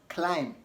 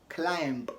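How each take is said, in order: The two takes are said the same way.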